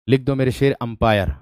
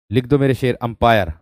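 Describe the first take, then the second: No difference in how they are said.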